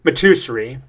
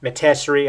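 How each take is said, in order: First: "Matusri" with an "oo" middle, ma-TOO-sree; tentative pronunciation. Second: "Matusri" with an "eh" middle, ma-TESS-ery; alternative pronunciation. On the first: Reader guessing at a character's name, ma-TOO-sree for "Matusri". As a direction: try "Matusri" as ma-TOO-sree, rising at the end. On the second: Reader unsure of a character's name, ma-TESS-ery for "Matusri". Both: Shown as a demonstration. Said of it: "I don't know how you pronounce it".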